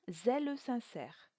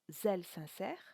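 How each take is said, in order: First: The final e of zèle is pronounced. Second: The final e of zèle is silent. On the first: The speaker calls it right. "mais bien zèle sincère, ce qui donne deux syllabes pour le mot zèle" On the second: The speaker calls it wrong. "On ne dira pas"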